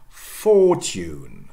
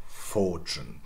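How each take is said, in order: First: "fortune" as FAW-tyoon, slow and loud; drawn-out "fortune" without ch; conservative pronunciation. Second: "fortune" as FAW-chun; lower, softer "fortune" with ch; J coalescence. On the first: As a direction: keep t and y apart in "fortune". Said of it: "stress shifts to the first syllable". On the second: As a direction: merge t and y of "fortune" into ch. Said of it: "And then J coalescence". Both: Shown as a demonstration.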